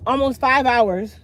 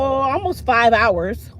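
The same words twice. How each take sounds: First: Almost five hours with five leaned on, a bit quicker; stress on five. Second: Almost five hours with five slowly stretched out; stress on five. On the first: Repeating the repair time for listeners, stressing five. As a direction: repeat it, still leaning on five. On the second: Telling listeners how long the repair took, stretching five. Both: Real, not acted.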